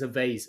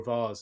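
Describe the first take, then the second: First: It is said with an American pronunciation. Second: It is said with an Irish pronunciation.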